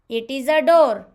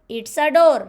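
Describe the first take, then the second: First: It is said in full, two separate words. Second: It is contracted into one short syllable.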